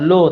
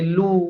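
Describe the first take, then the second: First: The u vowel is weak and not fully rounded. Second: The u vowel is full and clearly rounded. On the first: The speaker calls it wrong. "bukan lu" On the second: The speaker calls it right. "tapi lu"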